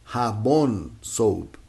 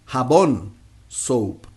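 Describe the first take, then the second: Both takes have the same delivery.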